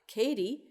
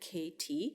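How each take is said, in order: First: The middle t is a quick flap. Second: The middle t is a full t sound. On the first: This is the Canadian and American form. "it's pronounced with a flap" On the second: This is the standard English form. "in the standard"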